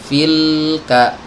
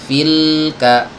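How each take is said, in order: Both takes have the same delivery.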